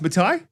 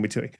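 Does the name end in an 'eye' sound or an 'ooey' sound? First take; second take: eye; ooey. First: The name ends with an 'eye' sound. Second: The name ends with an 'ooey' sound. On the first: This is how the name is actually said. The speaker calls it right. "but it's Matai" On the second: This is the Australian way of saying the name. The speaker calls it wrong. "why probably I'm saying Matui"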